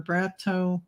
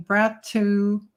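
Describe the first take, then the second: First: Brato said as "brat-oh"; alternative name reading. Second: Brato said as "brat-too"; tentative name reading. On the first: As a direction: end Brato on an "oh" sound, softer. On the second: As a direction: end Brato on an "oo" sound. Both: Real, not acted. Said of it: "not sure how to pronounce your name".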